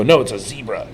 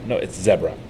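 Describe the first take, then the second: First: "zebra" said as ZEE-bruh; long-e zebra. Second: "zebra" said as ZEB-ruh; short-e zebra. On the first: Retelling a family argument, "zebra" as ZEE-bruh. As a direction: insist on "zebra" with a first syllable like see. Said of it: "look at me and go". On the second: Retelling a family argument, "zebra" as ZEB-ruh. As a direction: counter with "zebra" rhyming with Debra. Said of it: "have an argument over it". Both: Retold or imitated.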